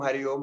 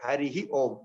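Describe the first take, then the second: First: Hari runs straight into Om, no extra syllable. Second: An extra 'hi' syllable comes before Om. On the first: The speaker calls it wrong. "normally people miss that uh, Harihi in between and say Hari Om" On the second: The speaker calls it right. "That is the correct pronunciation"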